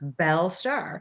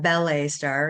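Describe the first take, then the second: First: The first word sounds like 'bell', one syllable. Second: The first word sounds like 'ballet', two syllables. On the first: The speaker calls it right. "it's Belle Starr" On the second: The speaker calls it wrong. "it's not Ballet Star"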